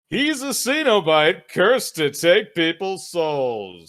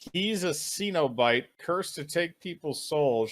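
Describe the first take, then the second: First: It is read in a dramatic movie-trailer voice. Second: It is read in an ordinary speaking voice.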